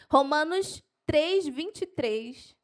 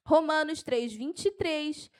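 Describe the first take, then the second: First: Slow, spaced-out verse reference; measured dictation pace; slow for note-taking. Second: Brisk, excited verse reference; keyed-up preacher citing a verse; carried away. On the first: Shown as a demonstration. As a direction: dictate it slowly for people writing. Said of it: "Eu vou falar devagar". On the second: Real, not acted. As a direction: rattle off the reference with enthusiasm. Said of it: "eu me empolgo".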